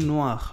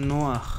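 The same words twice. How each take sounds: Both takes have the same delivery.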